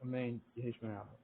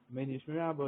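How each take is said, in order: First: It is said with a pause after Amen. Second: It is said without a pause after Amen. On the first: The speaker calls it right. "You should make a little bit of a hefsek between Amen and Yehishmer Rabba" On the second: The speaker calls it wrong. "You shouldn't say"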